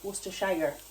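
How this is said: It is said in an American accent. "I love how you say it"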